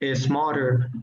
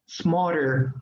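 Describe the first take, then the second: First: An extra e vowel comes before the s. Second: The word starts directly with a hissing s. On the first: The speaker calls it wrong. "tendemos a poner una E imaginaria y terminamos diciendo" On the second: The speaker calls it right. "pero smarter, como una culebrita"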